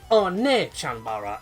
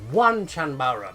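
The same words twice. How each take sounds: First: The first word sounds like 'oh-nee', two syllables. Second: The first word sounds like English 'one'. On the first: The speaker calls it right. "but it's actually O N E E" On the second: The speaker calls it wrong. "a lot of people pronounce it as One Chanbara"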